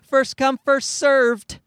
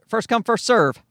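First: The final D sound is clearly pronounced. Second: The final D sound is dropped. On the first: The speaker calls it wrong. "when people are really enunciating it these days" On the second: The speaker calls it right. "That didn't sound so bad to me"

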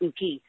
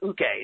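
First: The word ends with an 'ee' vowel. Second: The word ends with an 'eh' vowel. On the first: The speaker calls it wrong. "not uki" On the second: The speaker calls it right. "if you learn how to pronounce a Japanese language, it's uke"

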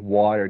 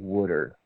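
First: It is said in a plain, non-Philadelphia accent. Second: It is said in a Philadelphia accent. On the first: "they wouldn't say water" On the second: "they had that whole entire dialect with, like, ... they'd say water"

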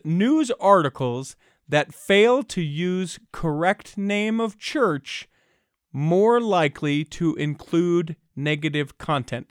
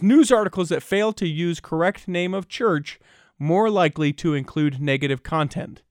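First: It is read at a slower pace. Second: It is read at a faster pace.

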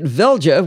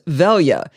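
First: The j is sounded like the English j. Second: The j is sounded like the English y. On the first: The speaker calls it wrong. "I called it Velja with a hard J" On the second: The speaker calls it right. "it's actually pronounced as though it's a Y"

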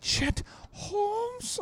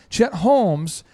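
First: The voice goes high on the name. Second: The voice stays level on the name. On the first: The name is unfamiliar and puzzling. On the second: The name is stated plainly.

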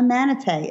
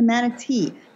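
First: The word ends with a 'tay' sound. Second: The word ends with a 'tee' sound. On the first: The speaker calls it wrong. "it's not even like T-A-Y" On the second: The speaker calls it right. "it's even spelled manatee"

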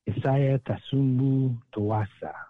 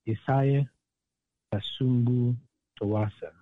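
First: The name is said at normal speed. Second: The name is said more slowly.

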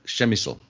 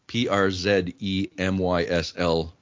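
First: The name is said with native Polish sounds. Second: The name is read out letter by letter. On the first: The speaker calls it right. "Turns out that's Przemysl" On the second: The speaker calls it wrong. "because Przemysl"

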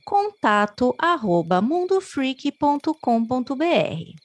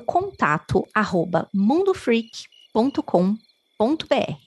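First: It imitates the Google assistant woman's voice. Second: It is said in her natural voice.

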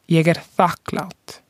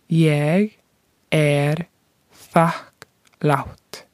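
First: It is said at normal speed. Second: It is said slowly.

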